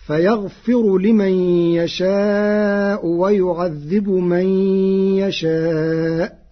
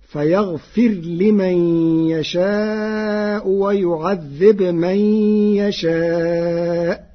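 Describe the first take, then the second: First: Slow chanted Quran verse; ترتيل بطيء; Hafs recitation. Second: فيغفر and ويعذب with a silent final ra and ba, chanted slowly; بجزم الراء والباء; Warsh with sukun. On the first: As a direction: stretch يشاء in tarteel. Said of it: "قرأ ورش". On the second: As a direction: clip the final ra and ba. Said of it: "بجزم الراء والباء". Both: Shown as a demonstration.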